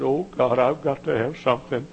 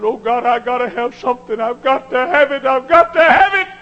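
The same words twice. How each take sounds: First: Said in the usual way. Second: Higher, louder, building cry; a son on his face in the sand crying out for power; desperate pleading. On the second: Retold or imitated. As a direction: beg God harder with every line.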